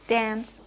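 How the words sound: It has a short front 'a' vowel, American style. "General American, where you would have"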